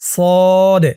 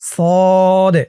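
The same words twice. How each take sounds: Both takes have the same delivery.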